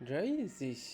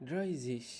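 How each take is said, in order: The two takes are said the same way.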